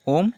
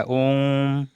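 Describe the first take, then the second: First: Said in the usual way. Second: ओम with the vowel held three times as long, slowly; ओम sung out with a long-held ओ; drawn-out pluta vowel. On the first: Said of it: "ऐसे इस तरह". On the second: Shown as a demonstration. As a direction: stretch the ओ in ओम long and slow, like chanting. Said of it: "ओम पढ़ते नहीं, ऐसे इस तरह".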